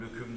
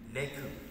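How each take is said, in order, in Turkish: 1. İlk ünlü yuvarlak, ö gibi. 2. İlk ünlü düz, e gibi.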